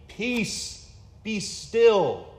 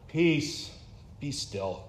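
First: It is said grandly with a powerful voice. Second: It is said tiredly with a low-energy voice.

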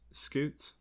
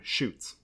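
First: The word begins with an sk sound. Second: The word begins with an sh sound. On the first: The speaker calls it right. "you know it's pronounced scoots?" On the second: The speaker calls it wrong. "But still, every single time"

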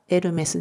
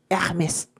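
First: It is said with a Japanese-style r sound. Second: It is said with a French-style r sound.

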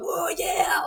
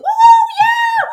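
First: It is shouted in a deep, manly voice. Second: It is shouted in a high, excited voice.

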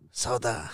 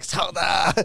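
First: The word is said very quietly. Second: The word is shouted loudly. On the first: "I say real quiet the first time" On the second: "I shouted like"

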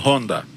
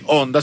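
First: The word starts with a breathy h-sound. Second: The word starts directly with a vowel sound. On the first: "sino Honda. Aquí en México se pronuncia la H" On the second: "no dicen onda"

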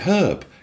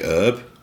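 First: It is said British-style, with the h pronounced. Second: It is said American-style, with a silent h.

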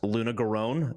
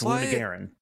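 First: The last syllable is said with an 'own' sound. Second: The last syllable is said with an 'en' sound. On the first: The speaker calls it wrong. "if someone comes on screen and says it's pronounced Luna Garone, they're wrong" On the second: The speaker calls it right. "It's Luna Garen"

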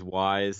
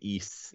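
First: The name sounds like the word 'wise'. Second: The name sounds like the word 'east'. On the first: The speaker calls it wrong. "which everyone says is Y's" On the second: The speaker calls it right. "it's actually East"

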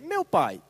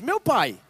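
First: It is said calmly, as a plain address. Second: It is exclaimed with sudden surprise.

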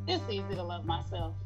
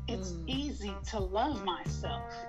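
First: It is said lightly, without conviction. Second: It is said firmly, with conviction. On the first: The speaker calls it wrong. "Don't just say it like that" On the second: The speaker calls it right. "Say it like you mean it"

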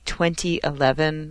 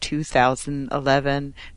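First: The year is read as twenty eleven. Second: The year is read as two thousand eleven. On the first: The speaker calls it right. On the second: The speaker calls it wrong.

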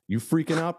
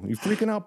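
First: It is said in the speaker's ordinary accent. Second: It is said in a put-on Boston accent.

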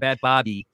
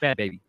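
First: The second word sounds like 'Bobby'. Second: The second word sounds like 'baby'. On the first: The speaker calls it wrong. "It's not Bad Bobby" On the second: The speaker calls it right. "It's Bad Baby"

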